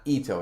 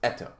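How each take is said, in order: First: The first vowel is not a short e. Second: The first vowel is a short e. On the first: The speaker calls it wrong. "it's not Ito" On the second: The speaker calls it right. "short E, as in words such as bet"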